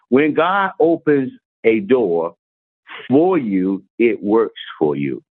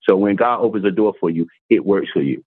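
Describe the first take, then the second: First: Slow, deliberate, weighing each word; slow emphatic reading. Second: Said in the usual way. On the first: Shown as a demonstration. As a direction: read it out slowly so it sinks in. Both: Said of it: "It said".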